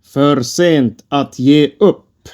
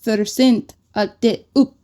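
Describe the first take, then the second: First: 'För sent att ge upp' spoken slowly and clearly; slow teaching Swedish. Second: 'För sent att ge upp' repeated by a learner; 'ge' said as 'de', rising at the end; careful repeat. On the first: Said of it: "teaching the phrase". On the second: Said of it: "repeating after teacher". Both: Shown as a demonstration.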